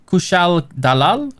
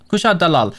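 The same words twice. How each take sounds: First: Kushal Dalal asked slowly, rising; tentative rising Kushal Dalal; questioning Kushal Dalal. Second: Kushal Dalal said with a falling tune; settled Kushal Dalal. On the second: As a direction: confirm Kushal Dalal firmly. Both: Shown as a demonstration.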